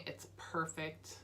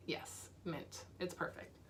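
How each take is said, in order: First: Said in the usual way. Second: Soft whisper. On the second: Real, not acted. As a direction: whisper it to yourself. Repeats it's perfect, then whispers.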